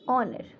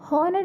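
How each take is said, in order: First: The word begins directly with a vowel sound. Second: The word begins with an audible h sound. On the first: The speaker calls it right. "एच यहाँ पे हमारा silent रहता है" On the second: The speaker calls it wrong. "हॉनर नहीं पढ़ते हैं"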